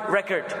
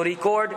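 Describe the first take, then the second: First: "record" as the verb, re-CORD, stress at the end. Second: "record" as the noun, RE-cord, stress up front. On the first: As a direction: say "record" with stress on the second syllable. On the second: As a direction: say "record" with stress on the first syllable. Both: Shown as a demonstration. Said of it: "pronounced differently based on".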